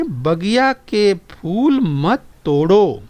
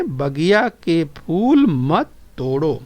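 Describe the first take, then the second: First: Very slow, each word drawn out; slow, deliberate reading to the class; slow model reading. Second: Slow, even repeat of the line; slow recitation for the class. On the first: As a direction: read it out slowly for children to copy. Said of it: "आगे सुनिए और दोहराइए". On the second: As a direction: say it again slowly with them. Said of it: "बोलिए". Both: Shown as a demonstration.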